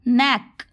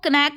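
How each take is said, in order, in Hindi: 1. शुरुआती k की ध्वनि साइलेंट होती है। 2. शुरुआती k की ध्वनि बोली जाती है। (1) "के को साइलेंट मानेंगे" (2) "इसको कनैक मत पढ़ लेना"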